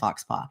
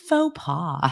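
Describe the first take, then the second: First: It is said with hard x and w sounds. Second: It is said with silent x and s sounds. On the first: It is a shared joke. The speaker calls it wrong. "jokingly mispronounce things" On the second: It is a correction. The speaker calls it right. "it's faux pas"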